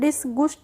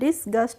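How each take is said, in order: First: The second vowel sounds like 'oo'. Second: The second vowel sounds like 'uh'. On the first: The speaker calls it wrong. "इसको हम डिसगुस्ट नहीं पढ़ेंगे" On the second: The speaker calls it right. "डिसगस्ट पढ़ेंगे"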